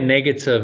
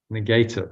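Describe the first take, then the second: First: The word begins with a short 'neg' sound. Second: The word begins sounding like 'negate'. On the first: It is just something unpleasant. "Because we say negative" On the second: The thought negates something. "when you pronounce it like negative, it negates"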